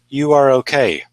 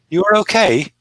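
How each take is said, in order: First: The voice falls at the end. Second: The voice rises at the end. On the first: It states a fact. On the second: It asks a question. "That's a question"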